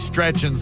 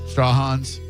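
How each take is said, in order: First: The name is said as 'Stretchins'. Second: The name is said as 'Straw Hans'. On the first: The speaker calls it wrong. "I've been saying it wrong on the radio for years" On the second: The speaker calls it right. "So that that's how you say it then?"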